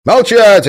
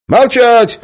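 First: Very loud, high yell; offended yell. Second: Very loud, high yell; shouting silence. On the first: Guard yells, offended by the mockery. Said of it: "обиделся конвоир". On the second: Guard yells at prisoners to be silent. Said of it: "опомнился конвоир". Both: Acted. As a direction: yell to shut them up.

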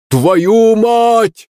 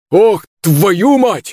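First: Much higher, louder shout with 'твою' stressed; same man shouting in alarm; shouted curse. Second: Higher and slow, drawn-out yell; man yelling in pain across the street; drawn-out curse cry. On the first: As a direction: blurt 'Твою мать' as a sharp loud yell. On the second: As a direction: stretch the curse out, 'твою' held long and falling. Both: Acted. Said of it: "услышал я знакомый крик".

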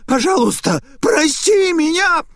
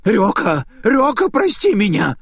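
First: Very high, loud, slowed desperate shriek for mercy; shrieking plea. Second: High, loud plea for forgiveness; desperate begging. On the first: Naita on the floor shrieks for mercy. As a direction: scream for mercy at the peak of terror. Naita begs, terror peaking. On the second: Cowering Naita begs Ryoka for forgiveness. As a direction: beg for your life. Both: Acted.

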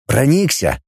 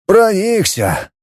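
First: Said in the usual way. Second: Slow, dejected «Проникся»; sulky reply; glum. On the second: A narrator's reading. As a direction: echo «Проникся» in disappointment. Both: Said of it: "уныло откликнулся".

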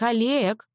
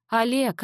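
First: Sharper, falling disgusted "Олег!". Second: Higher, squeamish reproach of Олег; disgusted. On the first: Mother repeats his name to stop him, disgusted. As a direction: snap "Олег!" in distaste. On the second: Mother scolds father, disgusted and higher. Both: Acted. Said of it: "брезгливо скорчилась мама".

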